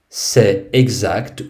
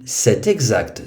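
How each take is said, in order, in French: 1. Les mots sont dits sans consonne de liaison. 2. Un son de liaison en t relie les deux mots.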